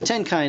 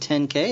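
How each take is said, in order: First: The second syllable sounds like 'kai', rhyming with 'sky'. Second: The second syllable sounds like the letter K.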